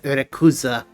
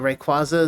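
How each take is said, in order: First: The name is said with Japanese sounds. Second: The name is said with English sounds.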